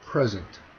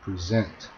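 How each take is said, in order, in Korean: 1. 강세는 첫 번째 음절에 있어요. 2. 강세는 두 번째 음절에 있어요. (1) "이렇게 앞에 강세를 주면 명사고" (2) "라고 말을 하면 동사가 되고"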